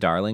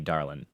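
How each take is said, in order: First: It is said in a neutral accent. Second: It is said in a Southern accent. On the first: "the way she says darling" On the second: "should have a southern accent"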